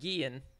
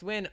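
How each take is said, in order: First: The name begins with a 'g' sound. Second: The name begins with a 'w' sound. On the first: "a lot of people call tell me it's pronounced Gian. The N is just silent" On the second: "a lot of people tell me it's pronounced Win"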